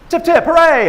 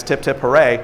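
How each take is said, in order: First: Loud high chant; chanted, call it out like the staff does; cheerful tip chant. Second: Said in the usual way. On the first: Retold or imitated. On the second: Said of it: "normally it's".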